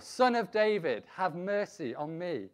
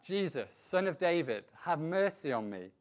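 First: Loud, high cry for mercy; shouting all the more. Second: Raised, measured call for mercy. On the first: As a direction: shout the plea, higher and more insistent. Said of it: "But he shouted all the more". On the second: Blind beggar calls out to Jesus for mercy, mildly raised. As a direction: call out a plea, slightly raised. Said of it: "He called out". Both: A narrator's reading.

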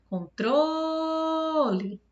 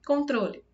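First: CONTROLE called out with a long held TRO; higher, very drawn-out con-TROOO-le; calling the word. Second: Said in the usual way. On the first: Shown as a demonstration. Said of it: "eu demorei mais no tro". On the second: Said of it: "você chama essa palavra".

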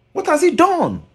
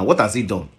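First: The same question again, far higher and pressing; high incredulous repeat. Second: Said in the usual way. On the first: Real, not acted. Challenging the singer about his uncle, high incredulous demand. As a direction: fling it up high in disbelief.

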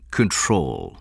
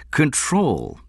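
First: Said in the usual way. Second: "Control" pitched high, falling at the end; emphatic repetition. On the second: A narrator's reading. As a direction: echo "Control" higher and more forcefully. Benjamin repeats Stone's word emphatically.

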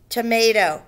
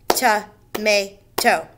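First: Said in the usual way. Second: "Tomato" drawn out slowly: to-ma-to; slow syllable split. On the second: Shown as a demonstration. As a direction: count each syllable of "Tomato" aloud. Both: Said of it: "Three syllables".

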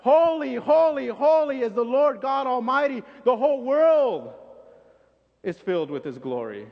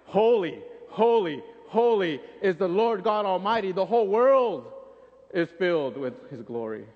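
First: Even louder, higher holy holy holy; louder proclamation. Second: Loud, ringing holy holy holy; emphatic proclamation. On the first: Second angel topping the first with a louder, higher call. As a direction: outdo the other angel, full voice. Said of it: "the other angel just ups it up a little more". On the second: Angel emphasizing the praise to his partner, loud and ringing. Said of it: "he probably emphasizes it just a little more". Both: Retold or imitated.

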